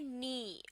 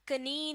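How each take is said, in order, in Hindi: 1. k बोला नहीं जाता; यह n से शुरू होता है। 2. n से पहले k की आवाज़ सुनाई देती है। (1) "बल्कि नी" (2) "कनी नहीं"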